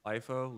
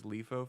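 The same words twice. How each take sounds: First: Lifo with the first syllable like "life"; long-i pronunciation. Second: Lifo with the first syllable like "leaf"; Casey's pronunciation. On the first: Shown as a demonstration. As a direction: say Lifo as LIE-foh. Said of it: "or as Casey says". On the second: Retold or imitated. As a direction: say Lifo as LEE-foh. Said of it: "as Casey says".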